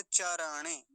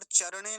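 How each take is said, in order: First: चरणे as "cha-ra-ne"; चरणे in three open, even syllables; Sanskrit चरणे. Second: चरणे quick, as "char-ne"; चरणे squeezed into two syllables; Hindi-style चरणे. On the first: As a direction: give र its full vowel in चरणे. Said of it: "और चरणे नहीं कहेंगे". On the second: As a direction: swallow the vowel after र in चरणे. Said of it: "नहीं कहेंगे". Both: Shown as a demonstration.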